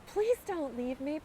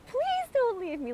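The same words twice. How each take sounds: First: Pleading. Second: High, desperate pleading voice. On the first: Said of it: "this voice come out of me saying". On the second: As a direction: beg as if desperate. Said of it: "Like a, a pleading, a desperation". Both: Retold or imitated.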